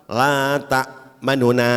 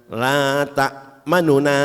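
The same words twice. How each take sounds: No difference in how they are said.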